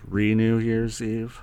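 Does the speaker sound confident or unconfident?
unconfident. It is said quietly and without confidence. The speaker calls it wrong. "I'm saying it with low"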